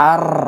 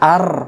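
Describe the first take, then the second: Both takes have the same delivery.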